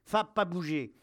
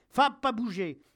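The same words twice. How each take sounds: First: Raised, firm command to stay; firm dog command. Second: High, loud shout to stay; yelled dog command. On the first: Acted. Soldier to his growling dog, firm raised command. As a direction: hold the dog back firmly. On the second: A narrator's reading. Soldier near breakdown to his growling dog, yelling. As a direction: yell at the dog in desperation. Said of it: "je hurle".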